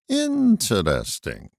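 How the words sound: It is said imitating the old TV guy.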